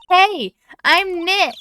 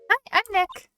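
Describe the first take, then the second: First: It is said more loudly. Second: It is said fairly quietly.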